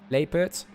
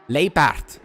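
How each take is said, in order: First: The name is given a plain English-style pronunciation. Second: The name is given an Afrikaans-style pronunciation. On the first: The speaker calls it right. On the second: The speaker calls it wrong.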